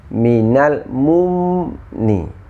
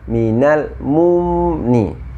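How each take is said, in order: Both takes have the same delivery.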